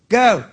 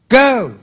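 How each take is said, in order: First: It is said softly, with little air. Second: It is said louder, with more breath. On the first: It comes only from the mouth. "Out of your mouth, Is just air" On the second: It comes from the lungs. "Out of your lungs, More air"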